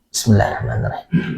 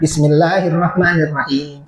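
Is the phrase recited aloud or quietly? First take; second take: quietly; aloud. First: It is recited quietly, under the breath. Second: It is recited aloud, clearly audible. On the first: "Kalau Hanabilah, sir" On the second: "Kalau kalau Syafi'iyah"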